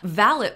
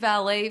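First: The final T sound is pronounced. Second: The final T sound is silent. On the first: A person who helps someone get dressed. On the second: A person who parks cars.

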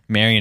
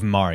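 First: The name is said with an American pronunciation. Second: The name is said with a Filipino pronunciation. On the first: This is the form used after moving to America. "Marion is a gentrified name" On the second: This is the original form used in the Philippines. "Because Marion is how you say it in the Philippines"

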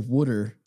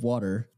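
First: Water is said with a South Jersey accent. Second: Water is said with a standard accent. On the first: "South Jerseyans always say water" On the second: "instead of water"

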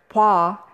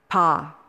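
First: A w sound is heard before the vowel. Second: No w sound is heard before the vowel.

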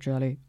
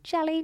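First: It is said in a lower pitch. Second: It is said in a very high pitch.

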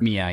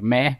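First: The name is said in a plain, unaccented way. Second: The name is said the Australian way, like meh.

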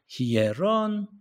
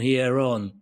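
First: The pitch of the voice rises in the word. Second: The word is said on a flat pitch. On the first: The speaker calls it right. "Our voice goes up" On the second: The speaker calls it wrong. "we don't say it like that in a monotonous tone"

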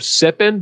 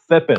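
First: The s sound is a plain, clear s. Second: The s sound is lisped like a th. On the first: "just think of sipping" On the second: "but have a lisp"

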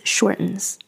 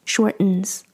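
Both takes have the same delivery.

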